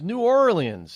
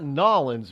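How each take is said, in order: First: The name is said in full with every syllable. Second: The name is squeezed into two short syllables. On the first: This is how an outsider says it. The speaker calls it right. "it's New Orleans" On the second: This is how locals say it. The speaker calls it wrong. "it's not Nolens"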